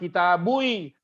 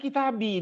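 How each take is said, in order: First: The word ends with a '-bui' sound. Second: The word ends with a plain '-bi' sound. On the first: The speaker calls it wrong. "nggak mungkin kita bertahan pada dhammah aslinya" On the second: The speaker calls it right. "Kan kitabi dibaca"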